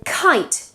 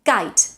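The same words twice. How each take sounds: First: "kite" with a puff of air after the k; English aspirated k in "kite". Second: "geit" as kite with no puff of air; Spanish-style k, close to g, in "geit"; unaspirated K. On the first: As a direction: release extra air on the k of "kite". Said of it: "they have to be aspirated". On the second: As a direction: hold back the air on the first sound of "geit". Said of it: "what we would say in Spanish". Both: Shown as a demonstration.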